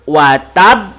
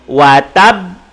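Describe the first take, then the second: First: The word stops on a bouncing final b. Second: The same.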